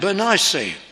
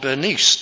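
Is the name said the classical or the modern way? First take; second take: classical; modern. First: The name is said the older, classical way. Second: The name is said the present-day way. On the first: This is the traditional way the name is read. "that's our classical pronunciation" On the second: This is how people with the name prefer it today. "People bearing this name prefer to be called Bernice today"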